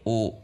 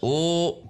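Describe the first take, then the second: First: The pitch stays flat and level. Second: The pitch rises on the vowel. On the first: The speaker calls it right. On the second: The speaker calls it wrong.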